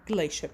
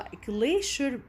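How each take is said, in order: First: The word is said with an American pronunciation. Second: The word is said with a British pronunciation. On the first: "in American we pronounce it as glacier" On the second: "glacier in British بنحكيها glacier"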